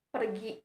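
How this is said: It is said softly in a relaxed, questioning tone. The speaker is asking about going. "nada yang saya keluarkan itu lebih santai dan bermaksud untuk menanyakan"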